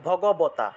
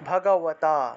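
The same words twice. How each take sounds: First: The b sound is made with the lips pressed together. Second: The b sound is made without the lips touching. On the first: "বর্গীয় ব ভগবতা" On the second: "অন্তস্থ ব এটা অন্তস্থ ব"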